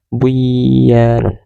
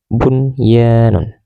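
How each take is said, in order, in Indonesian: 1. Bunyi n sebelum y dihilangkan. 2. Bunyi n sebelum y dibaca dengan jelas. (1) "Tidak boleh dibaca buyanun" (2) "harus dibaca jelas seperti tulisannya"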